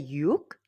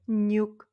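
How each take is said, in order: First: The word begins with a y sound. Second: The word begins with an n sound. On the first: It is followed by a vowel. "ça se prononce comme c'est écrit yuk" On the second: It is followed by a consonant. "Ça devient nyuk"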